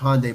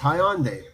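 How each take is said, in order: First: The name is said the usual American way. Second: The name is said the Korean way. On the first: The speaker calls it wrong. "in America they still pronounce it Hyundai" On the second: The speaker calls it right. "but it's Hyundai"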